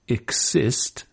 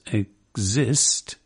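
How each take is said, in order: First: The middle consonants sound like k and s. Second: The middle consonants sound like g and z. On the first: "as opposed to" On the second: "G and Z have it covered if you pronounce exist"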